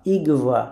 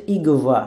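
The two takes are said the same way.

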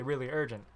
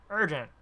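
First: Said in the usual way. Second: Urgent! pushed louder and higher; desperate Urgent! stressed loud; emphatic urgent. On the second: A narrator's reading. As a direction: hit Urgent! hard and high. Stranger repeats urgent.

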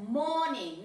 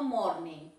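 First: "morning" as "mo-ning", no r, slow; correct silent R. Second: "morning" with a tapped r before the n; wrong sounded R. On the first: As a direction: draw out "morning" without the r. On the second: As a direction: show the mistake, an r in "morning". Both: Shown as a demonstration. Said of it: "no morning".

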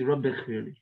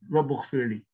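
First: Rabbi with an "i" ending before Ghfirli; correct vowel ending. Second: Rabbu with an "u" ending before Ghfirli; wrong vowel ending. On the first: Teacher showing students the usual form, "i" ending in Rabbi. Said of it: "You always see". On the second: Teacher showing students what is never said, wrong "u" in Rabbu. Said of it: "You don't see ever it". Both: Shown as a demonstration.

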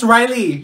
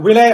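First: Riley said RYE-lee, high; high-pitched insistent "Riley", stressed on RYE; indignant correction. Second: "Relay" as ree-LAY; mispronounced Riley. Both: Acted. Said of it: "It's Riley".

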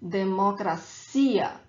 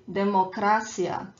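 First: Democracia with a strong CI, de-mo-cra-CI-a; stress on final ia. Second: Democracia with the stress on CRA; falsche Betonung. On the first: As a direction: hit the ia at the end of democracia. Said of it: "the stronger syllable is the last one". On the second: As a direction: say democracia stressing the third syllable, de-mo-CRA-cia. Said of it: "this is not how we pronounce". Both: Shown as a demonstration.

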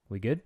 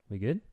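Both takes have the same delivery.

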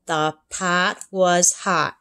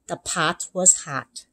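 First: Slow, deliberate reading; careful reading. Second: Slow practice read. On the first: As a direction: read each word slowly. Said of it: "she read". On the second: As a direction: read it carefully aloud. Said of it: "began to read". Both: Acted.

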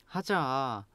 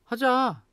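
First: Pleading. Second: 하자 high and insistent; urging. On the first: Teacher modelling tones for learners, pleading. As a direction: beg with a quiet, stretched 하자. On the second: Teacher modelling tones for learners, urging. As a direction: push 하자 up in pitch to coax. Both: Shown as a demonstration. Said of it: "the tone change".

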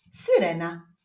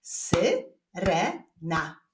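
First: Said in the usual way. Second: "Syrena" very slowly in three separate syllables. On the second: Shown as a demonstration. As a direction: break "Syrena" apart, a gap after each syllable. ("Syrena" bardzo powoli, sylabami) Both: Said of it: "Wyklaszczmy sylaby w wyrazie syrena".

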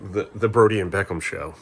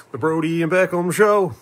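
First: Said in the usual way. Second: Higher, louder show-title announcement; playful title-card voice; mock show announcer. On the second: Repeats show name like an announcer.

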